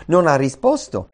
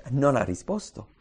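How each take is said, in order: First: Non ha risposto louder, with NON hit hard and falling; emphatic repeat. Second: Said in the usual way. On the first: Shown as a demonstration. Preacher driving home Jonah's silence, emphatic.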